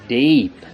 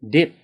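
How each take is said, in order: First: The vowel is long and drawn out. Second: The vowel is short and clipped. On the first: The speaker calls it right. "Correctly? ... Lengthen that E sound" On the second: The speaker calls it wrong. "Now I'll say it incorrectly"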